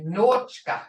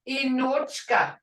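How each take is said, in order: First: The word begins directly with an n sound. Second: The word begins with a short vowel sound. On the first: This is how first-language speakers talk conversationally. "We don't say Inochka, we leave the E off" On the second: This is the formal way of speaking. "that's formal"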